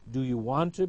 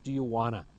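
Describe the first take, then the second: First: The words are said fully and distinctly. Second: The words are reduced and run together. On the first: "the unreduced"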